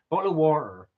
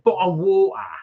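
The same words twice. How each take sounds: First: It is said in a West Country accent. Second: It is said in a South London accent.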